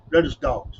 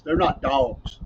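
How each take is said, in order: First: Said in the usual way. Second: "dogs" drawled out as D-A-W-G-S; dogs as "dawgs". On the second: Shown as a demonstration. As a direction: stretch the vowel of "dogs" into a Southern "dawgs". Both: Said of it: "They can't be D A W G S".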